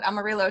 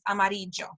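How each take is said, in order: First: It is said with an English pronunciation. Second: It is said with a Spanish pronunciation. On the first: This is how the Texas town is locally called. "that's what they've decided to call it" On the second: This is the real Spanish pronunciation. "with the real Spanish pronunciation"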